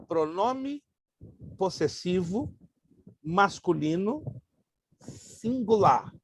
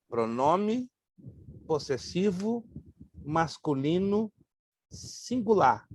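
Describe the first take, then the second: No difference in how they are said.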